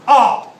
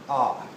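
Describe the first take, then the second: First: It is said loudly and aggressively. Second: It is said softly.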